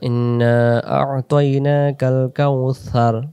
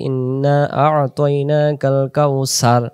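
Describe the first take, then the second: First: The last word has a soft 'th' sound. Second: The last word has a hissing 's' sound. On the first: The speaker calls it right. "সার জিহ্বার আগা থেকে সার" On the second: The speaker calls it wrong. "তখন সিন চলে আসতেছে"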